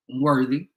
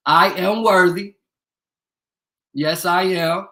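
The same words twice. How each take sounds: First: Said in the usual way. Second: Louder, slower, proud and emphatic; slow, loud self-proclamation; proud declaration. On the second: Acted. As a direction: proclaim it like a title. Repeats his claim, louder.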